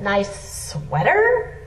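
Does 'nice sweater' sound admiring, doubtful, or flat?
doubtful. It is said doubtfully, as if questioning. The listener feels slighted by the remark. "You also like, oh, that was"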